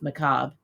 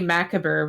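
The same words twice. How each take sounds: First: It is pronounced the usual way. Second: It is pronounced as it is spelled. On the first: The speaker calls it right. "instead of macabre" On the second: The speaker calls it wrong. "I used to say macabre when I was young"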